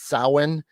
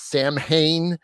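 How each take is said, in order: First: The word is pronounced in the traditional Gaelic way. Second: The word is pronounced closely following its spelling. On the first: The speaker calls it right. "but it's Samhain" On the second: The speaker calls it wrong. "the incorrect way is Samhain, which is wrong"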